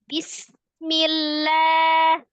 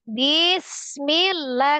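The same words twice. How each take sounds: First: The pitch stays level and even throughout. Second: The pitch swings up and down melodically. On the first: The speaker calls it right. "harusnya ... sejajar" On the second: The speaker calls it wrong. "ngayun kan Mbaknya?"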